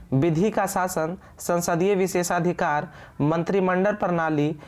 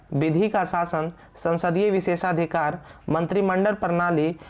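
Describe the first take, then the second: The two takes are said the same way.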